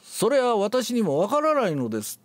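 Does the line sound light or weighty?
light. It is said lightly, without pressing on anything. The whole line loses its weight. The speaker calls it wrong. "全部軽くなる"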